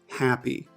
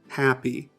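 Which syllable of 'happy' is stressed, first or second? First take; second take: first; first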